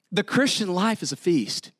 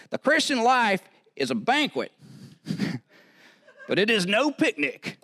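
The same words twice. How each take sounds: First: Said in the usual way. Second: Put-on high-pitched, strong Southern accent; J Vernon McGee. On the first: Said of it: "I do that well". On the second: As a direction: imitate an old preacher's Southern accent with relish. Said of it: "say it in this Southern accent".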